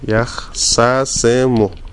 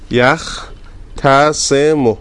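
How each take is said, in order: First: The t merges into a long doubled s. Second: A t sound is heard before the s.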